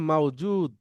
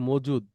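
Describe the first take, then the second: First: The first vowel is an aw glide. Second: The first vowel is a plain short o. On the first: "আরেকটু ভালো আরবিতে বললে" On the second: "বাংলায় বলি আমরা"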